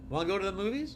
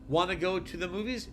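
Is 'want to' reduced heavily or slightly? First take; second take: heavily; slightly. First: 'Want to' is squeezed into a very short sound. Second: 'Want to' is reduced to a two-syllable 'wanna'. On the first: "This is even more of a reduction than wanna go to the movies" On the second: "everyone uses wanna"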